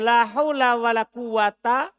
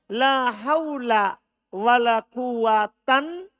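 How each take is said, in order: First: The last word ends in a bare vowel. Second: The last word ends with an n sound. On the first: Both negating words govern their nouns. "Kalau antum baca la haula wala quwata. Dua-duanya beramal" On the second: Only the first negating word governs its noun. "Tan bukan ta"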